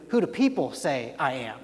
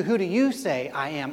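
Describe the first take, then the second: First: Said in the usual way. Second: Who do "you" say, with "you" pressed harder than the rest; pointed question, "you" stressed. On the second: Shown as a demonstration. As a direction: lean on "you" to make it personal. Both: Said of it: "I'm asking you".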